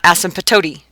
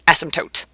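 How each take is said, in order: First: The P sound is clearly pronounced. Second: The P sound is left out. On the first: The speaker calls it wrong. "It's not asymptote" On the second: The speaker calls it right. "So you don't hear the P"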